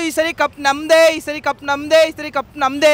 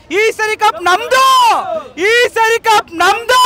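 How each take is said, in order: First: Said in the usual way. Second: Slow, loud, higher, leaning on ನಮ್ದು; triumphant slow chant with ನಮ್ದು hit hard; stress on ನಮ್ದು. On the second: Shown as a demonstration. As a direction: drag out ಕಪ್ ನಮ್ದು with a high, firm ನಮ್ದು. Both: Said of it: "ಆದ್ರೆ ಈ ಸರಿ ಅದಲ್ಲ".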